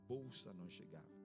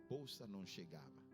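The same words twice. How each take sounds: The two takes are said the same way.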